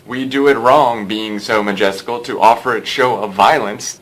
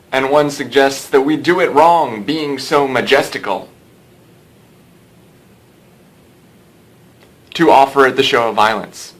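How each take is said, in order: First: No halt between "majestical" and "to offer it"; natural sentence reading. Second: Huge dead pause after "being so majestical", then "to offer it" louder; over-paused reading. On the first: Teacher reading Hamlet as a human speaking, natural sentence reading. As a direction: run "We do it wrong, being so majestical, to offer it show of violence" as one sentence. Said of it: "if you read it the way it's intended to be read".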